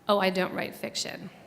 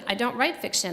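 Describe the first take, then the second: First: It is said casually and lightly. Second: It is said firmly and decisively.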